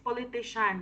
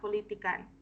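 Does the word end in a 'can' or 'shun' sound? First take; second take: shun; can. First: The word ends with a 'shun' sound. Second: The word ends with a 'can' sound. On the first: The speaker calls it right. "It's politician" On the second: The speaker calls it wrong. "not politican"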